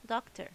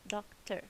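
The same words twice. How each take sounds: First: Said in the usual way. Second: "Doctor" in two even beats, doc-ter; clapped-out syllables. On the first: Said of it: "Let's do it by clapping". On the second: Shown as a demonstration. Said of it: "Let's do it by clapping to make sure".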